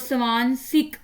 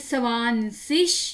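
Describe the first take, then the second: First: The word ends with a hard 'ik' sound. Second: The word ends with a soft 'ish' sound. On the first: "इक भी कह सकते हैं" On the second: "इश भी कह सकते हैं"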